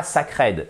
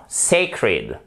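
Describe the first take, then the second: First: "sacred" dit sa-krèd, avec un A français; prononciation française fautive. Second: "sacred" dit SEY-kred, première syllabe appuyée; étire le SEY de "sacred", fin légère; prononciation juste. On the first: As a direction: imite un francophone qui lit "sacred" sa-krèd. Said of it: "Et pas sacred". ("sacred" à la française, syllabes égales) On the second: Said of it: "non, non, non, sacred". ("sacred" à l'anglaise, accent au début) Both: Shown as a demonstration.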